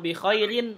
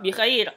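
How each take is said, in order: First: The word ends with an added -in syllable. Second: The word ends on a bare r sound.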